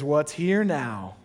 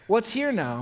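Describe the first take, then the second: First: Slow, deliberate "What's here now?"; slow question. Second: Higher, lighter repeat. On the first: Pastor modeling the question, slow. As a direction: draw the question out. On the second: Pastor repeating the question, lifted. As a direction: lift the second "What's here now?". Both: Shown as a demonstration. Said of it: "a great question to ask is".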